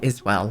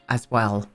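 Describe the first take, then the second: First: The first word has an 'i' vowel, like 'is'. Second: The first word has an 'a' vowel, like 'as'.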